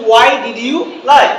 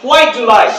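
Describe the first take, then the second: First: "Why did you lie" slow, words separated; slow learner pronunciation. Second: "Why do you lie" with "do you" fused to ju; native linking. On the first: Teacher shows how we say it, slow "Why did you lie". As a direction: take "Why did you lie" one word at a time. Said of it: "আমরা বলি যে". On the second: Teacher shows the English way, linked "Why do you lie". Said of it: "ইংলিশটা কি বলে?". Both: Shown as a demonstration.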